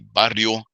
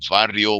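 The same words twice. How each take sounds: First: The word begins with a B sound. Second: The word begins with a V sound. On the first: "people say barrio" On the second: "cholos say barrio with a V"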